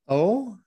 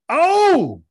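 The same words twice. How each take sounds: First: It is said in a nervous way. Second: It is said in an excited way.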